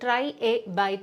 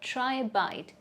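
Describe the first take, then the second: First: Try and a are said as separate words. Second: Try and a are linked with a glide. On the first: The speaker calls it wrong. "ഒരിക്കലും native speakers ... എന്ന് പറയ പറയേയില്ല" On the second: The speaker calls it right. "പകരം അവർ പറയുന്നത്"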